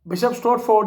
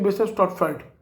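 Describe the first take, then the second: First: The last syllable is a full 'ford'. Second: The last syllable is reduced to 'fud'. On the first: The speaker calls it wrong. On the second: The speaker calls it right.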